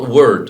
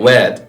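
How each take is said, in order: First: It is said in a standard British accent. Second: It is said in a Liverpool accent. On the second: "also they say word"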